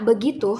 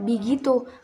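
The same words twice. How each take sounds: First: The first vowel is an e sound. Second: The first vowel is an i sound. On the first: "pengucapan bunyi e kasroh seperti kalimat kata begitu" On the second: "pengucapan e dalam bahasa Indonesia diucapkan i"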